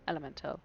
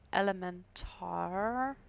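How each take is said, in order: First: The word is pronounced with a standard English ending. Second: The word is pronounced with a German-style ending. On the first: The speaker calls it right. "Elemental, not an elementar" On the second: The speaker calls it wrong. "That was a very German way of pronouncing it"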